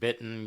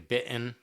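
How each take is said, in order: First: The T in the middle is clearly pronounced. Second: The T in the middle is dropped. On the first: "instead of saying bitten" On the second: "not saying T's in words"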